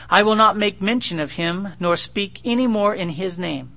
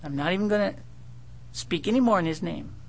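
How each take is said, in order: First: Said in the usual way. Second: Lightly voiced sulky young man, softer; a hint of a pouting young prophet; young guy sulking. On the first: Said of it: "You can almost hear the tonal inflection". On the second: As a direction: mutter it like a stubborn youth. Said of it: "tonal inflection, kind of a young guy".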